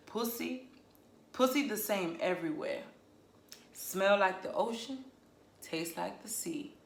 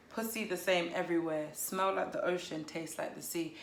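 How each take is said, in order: First: A light attempt at a Southern US accent. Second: Said in the usual way. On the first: Shown as a demonstration. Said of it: "if you do it in a southern accent". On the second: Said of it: "I bet it sounds different if you do it in a southern accent".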